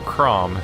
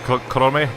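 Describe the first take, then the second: First: The name is said as one short syllable. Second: The name is said with extra vowels added. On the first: This is the commonly accepted way to say it. "it's just accepted that we call that guy from Fire Emblem Chrom" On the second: This imitates how the original voice actor says it. "the voice actor was clearly saying something along the lines of like Korome"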